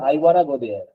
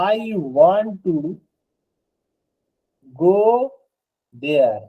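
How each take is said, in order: First: Want to is reduced to one word, wanna. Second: Want to is said fully as two words. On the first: This is how it is said in casual speech. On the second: This is the form used in writing.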